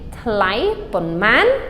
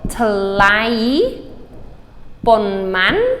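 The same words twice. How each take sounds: First: It is said at normal conversational speed. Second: It is said slowly and deliberately.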